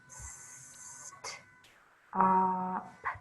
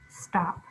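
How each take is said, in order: First: The word is broken into separate sounds. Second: The word is said smoothly as one unit. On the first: "Sound it out" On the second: "Read it fast"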